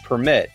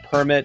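First: The stress is on the second syllable. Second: The stress is on the first syllable.

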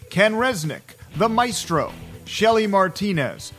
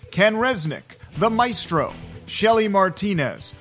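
No difference in how they are said.

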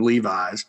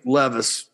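First: The name ends like the jeans brand. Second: The name ends with a soft 'vis' sound. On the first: The speaker calls it wrong. "I called him Levi's" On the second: The speaker calls it right. "and that's how you say it"

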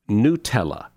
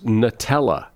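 First: The first syllable sounds like 'new'. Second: The first syllable sounds like 'nut'. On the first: The speaker calls it right. "It's actually pronounced Nutella" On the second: The speaker calls it wrong. "I've always thought it was Nutella"

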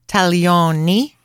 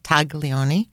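First: The G is silent in the middle. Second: A hard G is sounded in the middle. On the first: The speaker calls it right. "you just don't pronounce the G in the middle" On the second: The speaker calls it wrong. "Not taglioni"

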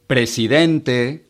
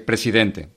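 First: The vowels are drawn out and extended. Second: The vowels are kept short and neutral.

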